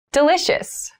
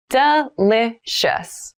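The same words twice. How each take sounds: First: Said in the usual way. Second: Delicious stretched out slowly; slow careful repeat. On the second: Shown as a demonstration. Teacher models Delicious for learners, slowly. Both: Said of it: "vocabulary drill, repeated for learners".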